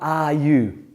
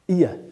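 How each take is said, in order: First: Both words are said fully and separately. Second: The two words blend into one weak syllable. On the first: The speaker calls it wrong. "Not are you" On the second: The speaker calls it right. "weak words"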